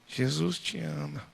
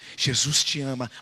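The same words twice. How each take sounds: First: It is said quietly. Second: It is said louder than before.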